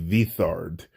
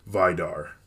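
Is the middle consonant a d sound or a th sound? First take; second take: th sound; d sound. First: The middle consonant is a soft th sound. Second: The middle consonant is a plain d sound. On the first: The speaker calls it right. "It's actually Vithard" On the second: The speaker calls it wrong. "I actually pronounced his name wrong"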